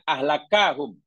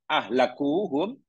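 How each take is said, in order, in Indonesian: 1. Vokal setelah k itu a. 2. Vokal setelah k itu u. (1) "dengan bacaan memfathahkannya" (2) "dengan merofakkan huruf kaf"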